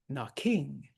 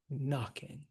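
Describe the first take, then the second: First: The stress is on the last syllable. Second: The stress is on the first syllable. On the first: The speaker calls it wrong. "We do not say knocking" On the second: The speaker calls it right. "we say knocking. So actually in this line, it ends unstressed"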